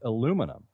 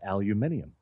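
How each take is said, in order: First: The word is said with four syllables. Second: The word is said with five syllables. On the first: This is the American form. "The American Chemical Society in nineteen twenty-five decided to start pronouncing it" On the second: This is the form used elsewhere in the world. "everywhere else in the world it is spelled and pronounced aluminium"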